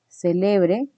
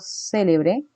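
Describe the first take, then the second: First: The stress is on the second syllable. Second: The stress is on the first syllable. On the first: That someone may celebrate. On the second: Famous.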